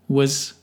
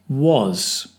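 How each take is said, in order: First: The word is said with a reduced vowel. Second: The word is said with a full vowel. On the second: "strong form"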